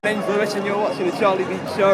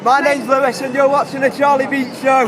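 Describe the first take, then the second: First: It is said with ordinary, lower energy. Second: It is said with more energy.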